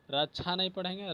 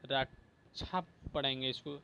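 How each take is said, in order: First: रक्षा slurred as "रच्छा", quicker; wrong pronunciation. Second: रक्षा with a clear क्ष, said softly; careful pronunciation. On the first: Teacher to students, mock wrong reading of रक्षा. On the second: Teacher to students, careful demo of रक्षा. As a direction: spell out रक्षा as rak-sha. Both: Shown as a demonstration.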